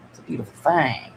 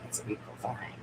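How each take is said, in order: First: Said in the usual way. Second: A hushed, admiring whisper. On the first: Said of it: "It's beautiful". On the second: Shown as a demonstration. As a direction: whisper "It's a beautiful thing" softly to yourself.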